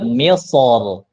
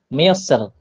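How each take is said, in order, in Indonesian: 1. R di akhir itu berat dan tebal. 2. R di akhir itu ringan dan tipis. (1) "Tapi kalau dibaca tebal" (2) "Kalau dibaca tipis"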